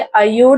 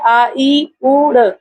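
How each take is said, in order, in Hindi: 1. स्वर आपस में मिलकर एक शब्द बन जाते हैं। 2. स्वर अलग-अलग ध्वनियों के रूप में बोले जाते हैं। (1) "इसको बोलेंगे" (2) "क्या लिखा हुआ है?"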